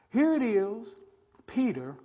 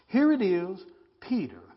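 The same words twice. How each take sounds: The two takes are said the same way.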